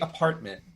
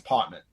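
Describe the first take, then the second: First: It is said in a general American accent. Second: It is said in a New York accent. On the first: "I can say apartment" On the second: "when I talk to people in New York, it's apartment"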